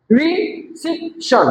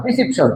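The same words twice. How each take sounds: First: রিসিপশন slow and higher, RE, CEP, TION; three spaced beats on রিসিপশন; broken into syllables. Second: Said in the usual way. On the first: Shown as a demonstration. Teacher shows three syllables to class, রিসিপশন split slowly. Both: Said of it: "তিনবারে".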